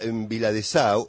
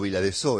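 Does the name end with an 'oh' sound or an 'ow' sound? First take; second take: ow; oh. First: The name ends with an 'ow' diphthong. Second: The name ends with a plain 'oh' vowel. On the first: The speaker calls it right. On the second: The speaker calls it wrong.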